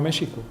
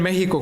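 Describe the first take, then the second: First: The middle consonant is a sh sound. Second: The middle consonant is a harsh throaty h. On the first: This is the old Spanish pronunciation. "antiguamente se pronunciaba México" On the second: This is the modern pronunciation. "hoy escribe en México con X"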